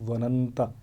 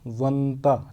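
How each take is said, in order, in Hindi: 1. दोनों n ध्वनियों के बीच एक स्वर आता है। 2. दोनों n ध्वनियाँ बिना स्वर के मिल जाती हैं। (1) "लेकिन यहाँ पे आ रहा है" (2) "यहाँ पे होना चाहिए था"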